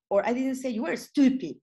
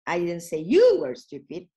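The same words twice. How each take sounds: First: "were" lifted high and stressed; higher "were", falling after it. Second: "you" hit hard and loud; loud "you", the rest kept level; stress on YOU. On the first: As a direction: lean on "were" as a correction of the past. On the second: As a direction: punch "you" so it points at the listener. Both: Shown as a demonstration. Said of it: "it depends where do you put the focus".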